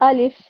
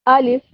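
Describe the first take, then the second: The two takes are said the same way.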